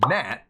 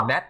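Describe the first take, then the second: First: NAT with an open English "a" as in cat; anglicised Nat; English pronunciation. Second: NAT said the Thai way, short vowel and stopped final T; Thai-style Nat; Thai pronunciation. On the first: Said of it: "In English". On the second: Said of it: "So in Thai". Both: Shown as a demonstration.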